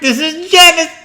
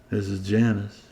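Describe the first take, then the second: First: It is said brightly with a lot of energy. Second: It is said flatly with very little energy. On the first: The caller gets an enthusiastic greeting that stands out. The speaker calls it right. "do they say it with that energy?" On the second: The caller gets a routine, uninterested greeting. The speaker calls it wrong. "that's about as low as energy"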